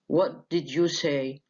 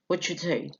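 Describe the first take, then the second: First: Every word is said fully and carefully. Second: It is said fast with words reduced.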